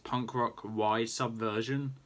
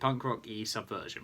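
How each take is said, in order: First: The middle letter is said as English 'why'. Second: The middle letter is said as Spanish 'ee'. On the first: Someone else reads it without knowing Spanish. The speaker calls it wrong. "I know Luke's going to pronounce it as" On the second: It is read as the Spanish word for 'and'. The speaker calls it right. "the word "and" in Spanish is "y,""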